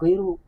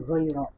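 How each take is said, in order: First: The word ends in an 'oo' vowel. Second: The word ends in an 'ah' vowel. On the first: The speaker calls it wrong. "Tidak dibaca goiru" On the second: The speaker calls it right. "tapi dibaca goiro"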